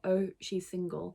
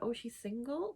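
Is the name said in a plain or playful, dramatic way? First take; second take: plain; playful. First: It is said in a plain, normal voice. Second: It is said in a playful, dramatic voice.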